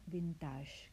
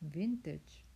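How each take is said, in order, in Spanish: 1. La palabra se dice con acento francés. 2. La palabra se dice con acento inglés. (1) "aunque suene muy cool o muy francés o muy chic, ya que tiene la terminología esta del acento este de los franceses, no se pronuncia vintage" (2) "el que le haga ilusión pronunciar bien, que repita conmigo. Es una especie de V, luego T y luego G, como el G de James"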